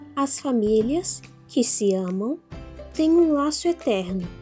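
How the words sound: There are pauses around 'que se amam'.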